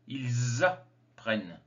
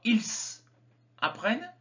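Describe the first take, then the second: First: Ils links to apprennent with a z sound. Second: Ils and apprennent are not linked. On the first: The speaker calls it right. "on fait la liaison" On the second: The speaker calls it wrong. "On ne dit pas ils apprennent"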